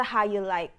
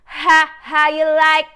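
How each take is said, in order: First: Said in the usual way. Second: Louder and higher, taunting; mock K-pop swagger; challenging attitude. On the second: Shown as a demonstration. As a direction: throw it out like a dare. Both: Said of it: "magkakaroon ng attitude sa".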